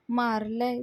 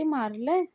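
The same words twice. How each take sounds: First: Said in the usual way. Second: "मारलंय?" as a rising, surprised question; questioning lift at the end; astonished echo. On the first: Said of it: "तो गुंड म्हणतो". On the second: Retold or imitated. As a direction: echo it back in mild disbelief. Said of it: "सगळे आश्चर्याने बघत असतात".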